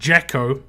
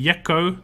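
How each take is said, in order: First: The name begins with an English J sound. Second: The name begins with a Y sound. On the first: "I'm pronoun- pronouncing it very English" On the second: "so it could be Yekko"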